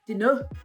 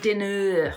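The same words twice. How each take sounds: First: The ending is a short, light uh sound. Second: The ending is a strong, drawn-out er sound. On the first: The speaker calls it right. "It's better for you to say dinner" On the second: The speaker calls it wrong. "than dinner"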